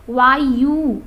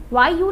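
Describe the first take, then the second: First: वायु said loud and falling, the wrong way; the incorrect वायु; wrong pronunciation. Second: वायु said carefully at the end; correct pronunciation. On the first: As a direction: show the mistaken वायु. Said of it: "वायु ना होकर के". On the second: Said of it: "ये शुद्ध रूप है इसका". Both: Shown as a demonstration.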